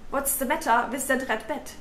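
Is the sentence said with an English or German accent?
German. It is said choppily with harsh German consonants.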